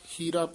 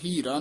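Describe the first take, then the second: First: The word is said softly and lightly. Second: The word is said forcefully and heavily. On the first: The speaker calls it right. "ਹੀਰਾ ਪੋਲਾ ਹੀ ਪਦ ਉਚਾਰਨ ਕਰਨਾ" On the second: The speaker calls it wrong. "ਹੀਰਾ ਨਹੀਂ ਕਹਿਣਾ"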